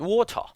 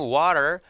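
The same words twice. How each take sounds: First: It is said in a British accent. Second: It is said in an American accent. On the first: "영국 발음은" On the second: "미국 발음은"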